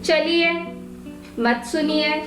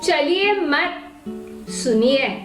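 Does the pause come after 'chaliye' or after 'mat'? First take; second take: after chaliye; after mat. First: The pause comes right after the first word. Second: The pause comes right after the second word. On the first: Go away, do not listen. "पहला वाक्य की जाइए मत सुनिए" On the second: Do not go, stay and listen. "वहां पर मैंने उन्हें बैठकर सुनने के लिए ही आज्ञा की है"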